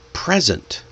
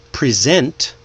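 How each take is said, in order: First: "present" said PREZ-ent, falling; first-syllable stress. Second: "present" said pre-ZENT; second-syllable stress. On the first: Teacher shows stress changing meaning, PRES-ent. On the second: Teacher shows stress changing meaning, pre-SENT. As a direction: punch the last syllable of "present". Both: Shown as a demonstration. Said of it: "when the stress changes".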